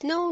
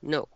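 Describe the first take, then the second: First: It is said in a high-pitched voice. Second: It is said in a low, firm voice. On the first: The listener does not take it as a real no. The speaker calls it wrong. "if you're always in a high-pitched voice" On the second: The listener understands it as a real no. The speaker calls it right. "or down is down"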